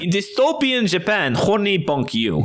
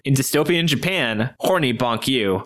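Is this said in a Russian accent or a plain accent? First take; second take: Russian; plain. First: It is read in a put-on Russian accent. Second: It is read in the speaker's usual accent. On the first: The speaker calls it right. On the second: The speaker calls it wrong.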